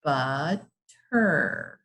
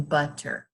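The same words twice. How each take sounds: First: Butter in two drawn-out, separate beats; butter sounded out in two chunks; broken into syllables. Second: Said in the usual way. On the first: Shown as a demonstration. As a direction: say butter slowly, pausing between the syllables. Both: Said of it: "How many vowel sounds do you hear".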